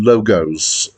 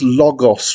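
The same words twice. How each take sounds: First: It is pronounced like the plural of logo. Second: It is pronounced like the Greek word logos. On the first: It is the plural of logo. The speaker calls it wrong. "rather than Logos" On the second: It is the Greek word. The speaker calls it right. "I believe it's Logos"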